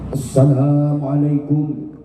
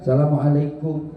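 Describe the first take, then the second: First: It is said energetically, like a boxing announcer. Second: It is said quietly and humbly, while bowing.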